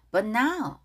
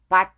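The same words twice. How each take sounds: First: "But now" with the t held unreleased; weak t pronunciation. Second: "but" with an added vowel, "ba-tu"; wrong pronunciation. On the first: Teacher correcting learners, "But now" with weak t. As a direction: run "But" into "now", swallowing the t. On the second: Teacher showing learners the mistake, "but" as "ba-tu". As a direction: give "but" a full Korean final syllable. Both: Shown as a demonstration. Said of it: "but 아닙니다".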